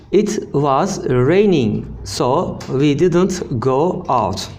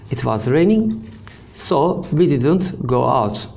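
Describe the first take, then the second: First: Slow, carefully spaced teaching read; slow model reading. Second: Said in the usual way. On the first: Shown as a demonstration. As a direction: spell the sentence out slowly for learners. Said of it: "teacher models sentence slowly". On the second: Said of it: "repeats at normal pace".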